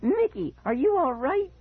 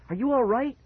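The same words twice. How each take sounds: First: Very high put-on voice of exaggerated concern; high mocking shriek. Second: High, anxious rising question; alarmed cry. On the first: Brother mimics sibling's worry, shrieking very high. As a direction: squeal the question in mocking mimicry. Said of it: "he shrieked in a high voice". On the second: Acted. Child checks on injured brother, crying out anxiously. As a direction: ask it high and urgently worried. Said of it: "I cried his name again and again".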